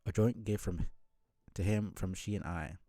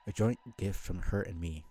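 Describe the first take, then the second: First: Said in the usual way. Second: Corrected line read with a laugh; laughing reread of the corrected line; laughing through the line. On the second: Acted. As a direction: laugh as you reread it properly.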